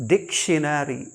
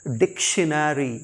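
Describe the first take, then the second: Both takes have the same delivery.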